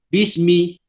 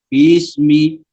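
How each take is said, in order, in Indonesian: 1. Ia diucapkan dengan cepat, bunyi-bunyinya bersambung. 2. Ia diucapkan sedikit lebih perlahan, setiap bunyi jelas dan terpisah. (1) "seolah-olah ba dengan sin tu jadi satu huruf" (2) "kena baca dengan uh, agak lengah sedikit"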